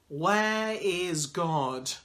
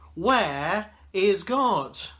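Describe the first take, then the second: First: It is said quietly but firmly. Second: It is said with a raised voice.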